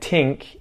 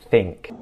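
First: The word starts with a T sound. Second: The word starts with a TH sound. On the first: The speaker calls it wrong. "more like a D or a T sound" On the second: The speaker calls it right. "pay attention to the th sound"

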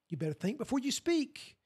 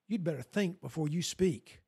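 First: It is said as gentle, caring advice. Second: It is said as a stern, threatening warning. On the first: Don't blurt out everything that comes to mind. "My mom would always say" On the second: Saying the wrong thing will have consequences. "he had it in a very different tone"

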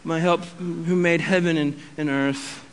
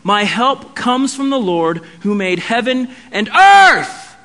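First: It is said flatly, without exclamatory energy. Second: It is said with strong, exclamatory energy. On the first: The speaker is not convinced of the statement. The speaker calls it wrong. "we read scripture in the wrong voice" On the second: The speaker is sure help comes from the Lord. The speaker calls it right. "There's an exclamation point there"

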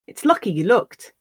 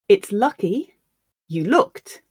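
First: The sentence is spoken at natural speed. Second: The sentence is spoken slowly. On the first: "Once at a more natural pace" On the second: "I'll read the sentence once slowly for you to grasp the words"

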